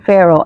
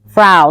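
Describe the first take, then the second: First: The name does not sound like 'frown'. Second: The name sounds like 'frown' without the n. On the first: The speaker calls it wrong. "I know that I'm saying it wrong" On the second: The speaker calls it right. "like frown"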